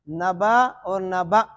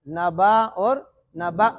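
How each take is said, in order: Both takes have the same delivery.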